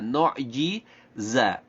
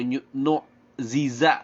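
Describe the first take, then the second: First: A j sound is followed by a z sound. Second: Both middle consonants are sounded as z. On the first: The speaker calls it right. "dua huruf yang makhrajnya berbeda" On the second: The speaker calls it wrong. "atau nu ziza, salah"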